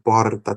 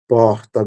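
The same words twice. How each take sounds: First: The R is a quick single tap. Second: The R is a breathy sound from the throat.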